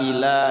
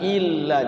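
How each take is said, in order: First: The l sound is single and short. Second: The l sound is doubled and held. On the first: The speaker calls it wrong. "Jangan sampai uh, ila gitu kan" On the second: The speaker calls it right. "illa disukunkan dulu, kemudian bunyikan oh apa lamnya yang kedua"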